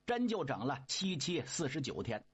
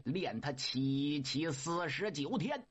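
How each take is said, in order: First: Said in the usual way. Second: Low, drawn-out chanting command; old Laojun intoning the forty-nine days; slow incantation. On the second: Acted. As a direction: intone it like a spell, slowly. Laojun orders the fire.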